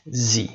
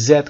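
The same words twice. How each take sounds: First: Z said American-style as "zee"; American pronunciation. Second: Z said British-style as "zed"; British pronunciation. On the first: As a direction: open long vowel in Z, "zee". (تلفظ امریکن Z به صورت «زی») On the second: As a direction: end Z on a D, "zed". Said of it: "در بریتیش انگلیش". (تلفظ بریتیش Z به صورت «زِد») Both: Shown as a demonstration.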